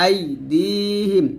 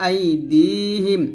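No difference in how they are said.

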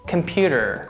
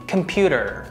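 First: It is said with American pronunciation. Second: It is said with American pronunciation.

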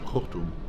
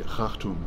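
First: The first vowel copies a later vowel. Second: The first vowel does not copy a later vowel. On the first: This is the form the speaker usually uses. "I say very often Khartoum" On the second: This is the form the speaker seldom uses. "I rarely say Khartoum"

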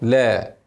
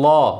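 First: The l sound is said thin and light. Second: The l sound is said thick and heavy. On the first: The speaker calls it right. "واللام مرققة" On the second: The speaker calls it wrong. "وهتقول لا غلط"

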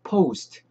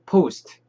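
First: The vowel glides into an 'oo' sound. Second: A plain vowel in clipped, separate syllables. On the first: The speaker calls it right. "중간에 우 발음이 좀 들어가요" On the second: The speaker calls it wrong. "포스트 이렇게 딱딱딱 떨어지는 발음이 아니고"

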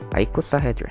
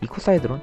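First: The word begins with an 'eye' sound. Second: The word begins with an 'ee' sound. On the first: The speaker calls it right. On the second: The speaker calls it wrong.

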